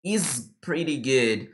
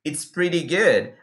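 First: Slow "is pretty good", "is" drawn out without a t; learner's bare "is". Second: Slow "it's pretty good" with a clear ts in "it's"; contracted "it's". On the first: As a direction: show the error "is pretty good", dropping "it". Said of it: "A pessoa só usa o is". ("is pretty good" devagar, sem o "it") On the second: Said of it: "você vai utilizar o it's". ("it's pretty good" devagar, com o t de "it's") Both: Shown as a demonstration.

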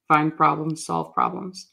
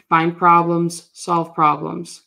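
First: Said in the usual way. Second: "problems" and "solve" stressed, drawn out slowly; slow emphatic. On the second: Acted. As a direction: punch "problems" hard, then slowly "solve problems". Coach chanting his motto.

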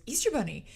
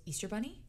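First: EASTER BUNNY louder and higher, falling at the end; imitated pointed repeat of "Easter Bunny"; child's insistent repeat. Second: EASTER BUNNY rising at the end as a question; curious little query on "Easter Bunny"; child's tentative question. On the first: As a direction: push "Easter Bunny" out loudly. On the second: Retold or imitated. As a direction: ask "Easter Bunny" lightly, lifting the end. Child's first questioning guess.

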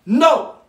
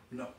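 First: Loud, high, forceful "No"; ringing, emphatic refusal. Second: Low, soft "No"; hushed, understated refusal; quiet no. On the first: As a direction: punch "No" out loudly as a final refusal. Emphatic answer, then repeated softly. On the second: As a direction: drop "No" down low after the big one. Same answer repeated softly after pause. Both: Acted.

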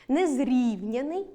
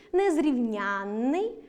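First: Незрівняний with stress on РІВ, single н; slow незрівняний, leaning on РІВ; stress on the root. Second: Незрівнянний with stress on НЯН, long double н; stress on the suffix. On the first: (наголос на корені: незрІвняний) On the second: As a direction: slowly stretch незрівнЯННий. (наголос на суфіксі: незрівнЯнний) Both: Shown as a demonstration. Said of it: "наголос падає на суфікс".

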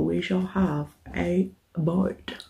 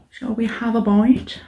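First: Slow soft murmur. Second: Said in the usual way. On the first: Acted.

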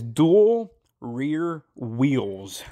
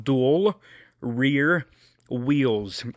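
First: Slow and careful. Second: "Dual" "rear" "wheels" each said slowly apart; word by word. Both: Shown as a demonstration. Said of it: "This is a tough one".

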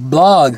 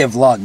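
First: BLOG said with a plain B sound; BLOG, b instead of v. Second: VLOG starting on a V-L blend; VLOG, v sound before the l. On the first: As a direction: say "blog", starting on a hard B. Questions others' pronunciation, blog versus vlog. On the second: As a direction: say "vlog" with a V, not a B. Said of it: "I usually say vlog". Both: Shown as a demonstration.

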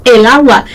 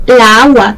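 First: Said in the usual way. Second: "la agua" with the two a's run into one long vowel; awkward-sounding example. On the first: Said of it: "dices el agua". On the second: Shown as a demonstration. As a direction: draw out the doubled a in "la agua". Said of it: "suene raro, como por ejemplo".

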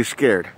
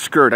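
First: "scared" in its standard form, not "skurred"; standard pronunciation. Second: "scared" with an er vowel, as in "skurred"; imitated pronunciation. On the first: Shown as a demonstration. Showing the proper word against his version, "scared" rhyming with "cared". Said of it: "know how to pronounce it right". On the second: Mocking how another man pronounces it, "scared" said as "skurred". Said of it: "he says scared".

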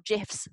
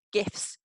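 First: "gifs" said like "jifs"; "gifs" with a soft g, as in gin. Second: "gifs" with a hard g. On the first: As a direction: start "gifs" with a j sound. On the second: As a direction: say "gifs" with the g of gift. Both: Shown as a demonstration. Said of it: "however you pronounce them".

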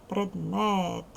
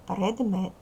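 First: "Предмет" with the second vowel drawn out; stretched stressed vowel. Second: Said in the usual way. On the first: Shown as a demonstration. Teacher helping pupils find the vowel, stretched "Предмет". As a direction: lengthen the last "е" in "Предмет". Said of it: "другий голосний". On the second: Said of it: "Другий голосний у слові".

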